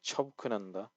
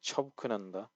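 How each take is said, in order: First: The h sound is dropped and the word flows. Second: The same.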